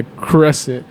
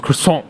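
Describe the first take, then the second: First: "crescent" said the English way, plain hard r and sounded t; anglicized "crescent", no French in it; Americanized croissant. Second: Frenchified "croissant", nasal last vowel and no final t; French-style correction. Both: Retold or imitated. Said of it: "they correct him".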